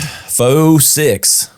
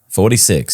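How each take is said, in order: First: It is said in a southern drawl. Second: It is said in a plain accent.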